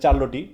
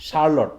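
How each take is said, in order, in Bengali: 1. শব্দটি ch দিয়ে শুরু হয়। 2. শব্দটি sh দিয়ে শুরু হয়। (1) "অনেক স্টুডেন্ট বলে থাকে আর কি এটা চার্লটি" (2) "কিন্তু এটা হবে কি"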